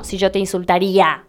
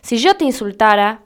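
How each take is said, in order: First: "insultaría" with stressed í before final a; wrong conditional form. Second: "insultara" ending in -ara, no i; correct subjunctive form. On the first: Teacher rejecting the common mistake, "insultaría" ending -ría. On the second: Teacher modelling the subjunctive, "insultara" ending -ara. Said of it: "lo que hay que usar es el subjuntivo". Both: Shown as a demonstration.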